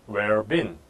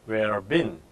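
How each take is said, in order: No difference in how they are said.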